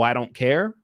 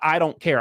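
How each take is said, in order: First: It sounds like an incredulous, mocking retort. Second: It sounds like a flat, sincere admission. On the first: The speaker throws the accusation back in disbelief. The speaker calls it right. "I was saying, oh" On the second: The speaker admits not caring. The speaker calls it wrong. "So I was never saying, yeah"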